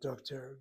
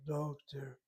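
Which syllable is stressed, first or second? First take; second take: second; first. First: The stress is on the second syllable. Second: The stress is on the first syllable. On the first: The speaker calls it wrong. "not doctor" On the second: The speaker calls it right. "the accent in the word doctor is uh, the first syllable"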